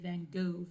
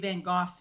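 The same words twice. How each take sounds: First: It is said the American way. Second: It is said the British way.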